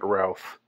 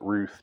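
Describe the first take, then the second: First: The vowel sounds like the one in 'mouth'. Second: The vowel sounds like the one in 'truth'. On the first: "I'm pronouncing it Routh" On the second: "I've heard some people pronounce it Ruth"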